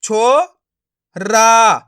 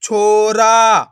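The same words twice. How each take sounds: First: छो and रा sounded separately; short छो, pause, long रा; syllable by syllable. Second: छोरा very slow, joined and loud; blended word. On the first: Teacher breaking a word up for learners, syllable by syllable. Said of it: "एक एक अक्षर का उच्चारण करके". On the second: Teacher showing learners the joined result, blended word. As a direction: stretch छोरा as one word. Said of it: "तो मिलके बन जाएगा". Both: Shown as a demonstration.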